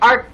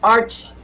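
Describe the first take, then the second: First: The word ends with a 'k' sound. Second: The word ends with a 'ch' sound. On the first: The speaker calls it wrong. "That's wrong pronunciation" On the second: The speaker calls it right. "The proper way of pronouncing the word ha is arch"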